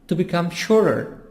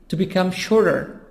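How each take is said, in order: No difference in how they are said.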